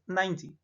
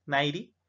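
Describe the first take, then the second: First: "ninety" with a D-like T, "naindi". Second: "ninety" with the T flapped into an R, "nairi"; the mistaken "ninety" said like "nairi"; "ninety" wrongly flapped to "nairi". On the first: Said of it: "como una D". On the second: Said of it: "Aquí no suena como una R". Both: Shown as a demonstration.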